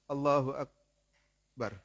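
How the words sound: There is a short pause between the two words. The speaker calls it wrong. "Agak sebentar sedikit"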